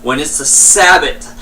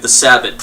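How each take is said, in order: First: Said in the usual way. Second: "the Sabot" stretched out through a yawn. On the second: Real, not acted. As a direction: say "the Sabot" mid-yawn, mouth wide open. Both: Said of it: "sorry, I yawned".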